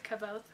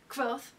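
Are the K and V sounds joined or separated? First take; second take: separated; joined. First: The K and V are said separately. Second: The K and V are said together. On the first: The speaker calls it wrong. "some people say Kavoth" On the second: The speaker calls it right. "he does the K and the V at the same time"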